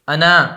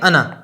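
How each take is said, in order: First: The final vowel is stretched out long. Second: The final vowel is short, not drawn out. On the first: The speaker calls it wrong. "अगर अलिफ के साथ पढ़ते तो हम थोड़ा खींच के पढ़ते" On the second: The speaker calls it right. "लेकिन अलिफ को पढ़ेंगे नहीं, बल्कि क्या पढ़ेंगे? अना"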